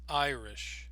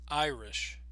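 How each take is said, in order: The two takes are said the same way.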